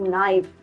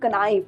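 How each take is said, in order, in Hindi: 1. इस शब्द की शुरुआत में K साइलेंट है। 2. इस शब्द की शुरुआत में K की आवाज़ सुनाई देती है। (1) "we'll pronounce it as knife" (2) "we don't read it as knife"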